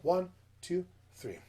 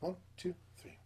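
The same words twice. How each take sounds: First: It is counted at a medium speed. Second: It is counted quickly.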